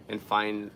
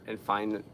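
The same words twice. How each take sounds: The two takes are said the same way.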